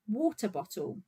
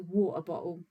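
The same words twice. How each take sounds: First: The T sounds are clearly pronounced. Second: The T sounds are dropped. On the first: "if you're not lazy and you pronounce all of your letters properly" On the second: "I can't be bothered to pronounce my T's"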